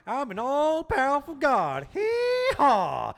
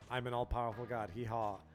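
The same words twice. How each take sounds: First: It is said in a put-on Kefka voice. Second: It is said in his normal voice.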